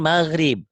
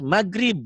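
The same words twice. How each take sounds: First: The middle consonant is a soft throaty gh. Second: The middle consonant is a hard g stop. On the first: This is the original pronunciation. The speaker calls it right. "Padahal maghrib" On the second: This is how Sundanese speakers say it. The speaker calls it wrong. "Kalau di Sunda kekerasan terus maghrib. G-nya jadi G"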